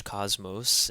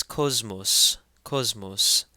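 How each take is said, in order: First: "cosmos" with an open English "ah": KAHZ-mohs; English pronunciation. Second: "cosmos" as KOZ-mos, round O and Z sound; louder, teach "cosmos" with rounded vowels and a Z; Coptic pronunciation. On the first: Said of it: "familiar to us in English". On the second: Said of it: "it takes a Z sound". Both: Shown as a demonstration.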